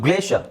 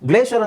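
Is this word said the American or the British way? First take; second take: American; American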